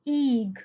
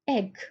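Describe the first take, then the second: First: The vowel is a long 'ee' sound. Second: The vowel is a short 'eh' sound. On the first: The speaker calls it wrong. "Do we say eeg like tree? No, we don't" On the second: The speaker calls it right. "the sound of E in egg is eh"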